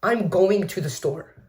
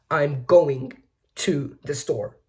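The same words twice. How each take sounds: First: Said in the usual way. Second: "going" hit hard, pause, then "to the store" drawn out slowly; slow demo of English stress, leaning on "going"; stress timing. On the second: Shown as a demonstration. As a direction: break after a stressed "going", stretch "to the store". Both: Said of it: "English has stress timing".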